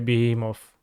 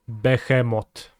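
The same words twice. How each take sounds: First: It is said with an English pronunciation. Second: It is said with a Polish pronunciation. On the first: "if you say it in English" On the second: "if you say it with a Polish accent"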